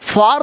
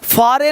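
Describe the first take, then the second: First: It is said like 'far' with an ah vowel. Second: It is said 'faa-re' with two syllables. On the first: "फार नहीं" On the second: "फारे नहीं"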